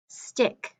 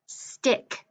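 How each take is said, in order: Both takes have the same delivery.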